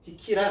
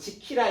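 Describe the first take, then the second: First: The word begins with a D sound. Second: The word begins with a J sound. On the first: This is the older, unpalatalized pronunciation. "옛날에는 이렇게 디귿이 그대로 쓰여 있었습니다" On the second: This is the modern, palatalized pronunciation. "지금은 국외화 돼가지고 지키라 이렇게"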